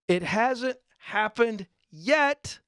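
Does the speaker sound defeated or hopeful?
hopeful. It sounds upbeat, with strong emphasis on yet. It is going to happen. The speaker calls it right. "When I put an emphasis on yet with an exclamation point"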